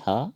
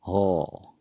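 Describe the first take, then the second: First: "ह" with an open a vowel; Hindi pronunciation. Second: "हो" with a long rounded o; Assamese pronunciation. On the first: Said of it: "Hindi में होता है". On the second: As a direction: say "हो" the Assamese way, o instead of a. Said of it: "असमिया में इसको हम कहेंगे". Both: Shown as a demonstration.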